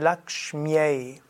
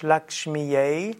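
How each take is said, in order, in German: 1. Das y wird als Konsonant gesprochen, wie ya. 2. Das y wird als Vokal gesprochen, wie i. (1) "Das Y ist hörbar, wird aber das Y sein Ja" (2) "Es ist nicht ein I, also nicht Lakshmyai"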